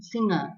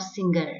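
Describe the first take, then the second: First: Singer as SING-uh, no hard g; correct pronunciation. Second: Singer as SING-ger, hard g; wrong pronunciation. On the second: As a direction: sound a hard g in the middle of singer. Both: Shown as a demonstration. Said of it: "and not singer".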